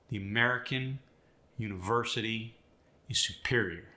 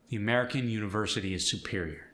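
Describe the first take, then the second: First: The stressed syllables are strongly exaggerated. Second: The stressed syllables are said at normal strength.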